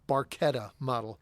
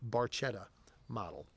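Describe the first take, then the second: First: The middle consonant is a 'k' sound. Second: The middle consonant is a 'ch' sound. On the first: The speaker calls it right. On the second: The speaker calls it wrong.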